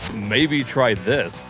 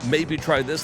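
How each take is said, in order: First: It is said in a condescending, mocking tone. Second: It is said in a friendly, helpful tone. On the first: The commenter is making fun of the streamer. "Look how condescending they're being" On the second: The commenter is trying to help. "like they're, they're trying to help"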